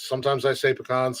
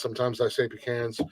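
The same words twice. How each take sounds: First: "pecans" said as puh-KAHNS, stress on the second syllable; "pecans" puh-KAHNS, long ah; pecans the first way. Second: "pecans" said as PEE-cans, short a; "pecans" PEE-kanz, open a sound; pecans the other way. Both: Shown as a demonstration.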